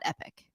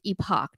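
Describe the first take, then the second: First: It ends with a short 'ick' sound. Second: It ends with a clear 'ock' sound. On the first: The speaker calls it wrong. "not epic" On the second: The speaker calls it right. "It's epoch, not epic"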